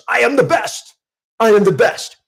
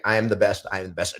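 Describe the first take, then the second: First: High, loud, forceful declaration; declared loud. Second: Said in the usual way. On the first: Shown as a demonstration. Coach showing a declaration versus a mere affirmation, loud and high. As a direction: proclaim it with full conviction. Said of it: "A declaration is". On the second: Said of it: "an affirmation is just something I say".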